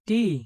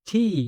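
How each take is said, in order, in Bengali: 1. t ধ্বনিতে বাতাসের কোনো ঝলক নেই। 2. t ধ্বনিতে বাতাসের একটি ঝলক আছে। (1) "এটি ভুল" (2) "ট এর পরিবর্তে ঠ"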